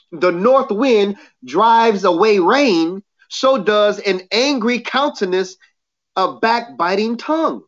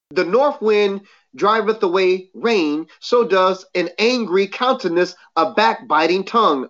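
First: Slowed down, each phrase weighted; slower repeat. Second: Said in the usual way. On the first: Shown as a demonstration. Preacher repeating the verse for emphasis, slower. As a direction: say it again, slower, so it lands. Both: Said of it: "I'll say it again".

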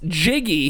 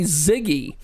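First: Said in the usual way. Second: "Ziggy" with a buzzing Z at the start; mispronounced Jiggy. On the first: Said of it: "never could pronounce Jiggy". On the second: Shown as a demonstration. Host shows promoter's mistake, "Ziggy" starting with Z. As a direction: say "Ziggy", Z in place of the J sound. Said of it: "He always called me Ziggy".

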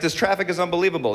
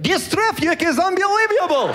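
First: Said in the usual way. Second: High, thick mock Russian accent; exaggerated comic Russian accent. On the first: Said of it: "Take any sentence". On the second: Shown as a demonstration. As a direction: slip a Y sound into the words, Russian-style. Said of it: "the Russian accent".

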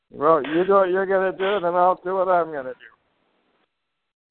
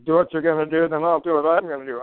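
First: Firm, deliberate, the second half slowed right down; slow, firm ending. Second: Said in the usual way. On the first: Retold or imitated. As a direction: lay it down slowly and firmly, like a challenge. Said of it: "I've said that to judges". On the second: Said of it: "you could just say".

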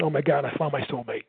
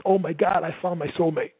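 First: Said in the usual way. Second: A bit louder, eager delight; louder, excited. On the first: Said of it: "if you speak loud like me". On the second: Shown as a demonstration. Sales coach showing a loud, fast talker finding a match, louder. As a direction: say it a touch louder, thrilled. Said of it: "if you speak loud like me and fast".

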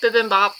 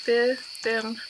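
First: "Bibimbap." said as "bithimbap" with a th sound in the middle; wrong pronunciation. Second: "Bibimbap." said as "bibim-bap" with a clear b and m; checked pronunciation. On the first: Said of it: "I, uh, that's not right". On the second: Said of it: "I need to look it up". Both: Shown as a demonstration.

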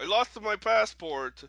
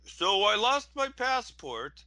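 First: Loud, slow mock Russian accent; half-hearted Russian accent try. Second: High, slow mock Russian accent; bad Russian accent, hammed-up. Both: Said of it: "I can't do Russian accents".

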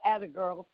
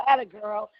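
First: Soft praise. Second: Bright praise. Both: Retold or imitated. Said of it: "I go".

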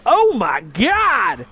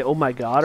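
First: Put-on high, long-drawn exclamation, British accent lost; botched British accent. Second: Said in the usual way. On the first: Actor retells turning to Holmes at audition, botched British accent. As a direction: stretch it loud and high, accent collapsing. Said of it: "turned to Holmes and go". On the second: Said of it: "my character was supposed to say".

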